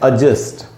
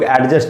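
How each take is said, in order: First: The first vowel is a short, weak 'uh'. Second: The first vowel is a full 'e' sound. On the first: The speaker calls it right. "असल में pronunciation है ... आधा अ" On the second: The speaker calls it wrong. "जिसको हम लोग एडजस्ट बोलते हैं"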